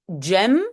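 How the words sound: It starts with an English-style j sound. This is how it is often said in the Netherlands. "aux Pays-Bas, souvent, on le prononce euh, comme en anglais"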